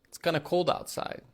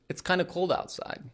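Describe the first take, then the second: No difference in how they are said.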